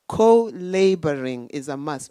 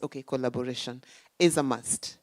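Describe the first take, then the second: First: "co-laboring" said loud as co-LABORING, split into co and laboring; punning co-laboring. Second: Said in the usual way. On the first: Shown as a demonstration. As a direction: punch "co-laboring" as a wordplay on labor.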